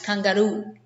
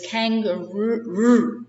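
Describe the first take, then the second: First: The r is a soft, barely audible tap. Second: The r is a hard English r sound. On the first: "But in Spanish, it's kangaroo. You can hardly hear it" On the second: "In English, we say kangaroo. We have a harder sound than you do, but we don't roll it"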